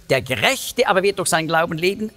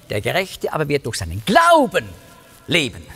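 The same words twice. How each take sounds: First: Quick line with the weight early on "Gerechte"; "Gerechte" emphasized, the remainder rattled off; stress on Gerechte. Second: Big emphatic peak on "Glauben"; stress on Glauben. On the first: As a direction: punch "Gerechte", run briskly through the rest. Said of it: "die Betonung nicht, wie im Römerbrief". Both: Shown as a demonstration.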